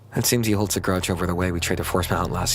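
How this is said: It is read naturally, like everyday street speech.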